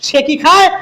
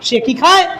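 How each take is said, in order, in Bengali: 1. এটি প্রশ্নসূচক সুরে বলা হয়েছে। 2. এটি প্রশ্নসূচক সুরে বলা হয়েছে।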